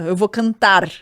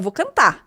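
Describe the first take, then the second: First: The final R of cantar is pronounced. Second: The final R of cantar is dropped. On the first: "Primeiro não fala"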